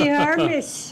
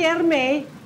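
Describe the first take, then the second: First: The name is said with a final s sound. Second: The name is said without a final s sound. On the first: "pag Ingles di Hermes" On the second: "Pag Frances di Herme"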